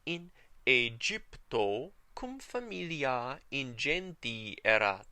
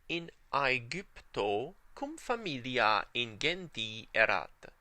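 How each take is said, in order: First: Aegypto begins with an 'ay' sound. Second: Aegypto begins with an 'eye' sound. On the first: "And the ecclesiastical" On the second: "Here's the restored pronunciation"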